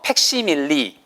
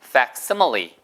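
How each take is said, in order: First: It is said with Korean loanword pronunciation. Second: It is said with English pronunciation. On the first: "옛날에는 이 원래 단어가 네 글자짜리가 있었어요" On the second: "정확한 발음은"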